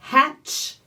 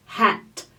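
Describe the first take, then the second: First: Hatch ending in a clear ch. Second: Hat stopping on a clean T; clean final T. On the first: Fonoaudióloga contrastando hatch com hat. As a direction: let the ch of Hatch hiss out. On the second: Fonoaudióloga contrastando hat com hatch. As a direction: end hat crisply on the T. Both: Shown as a demonstration. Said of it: "Hatch é diferente de hat".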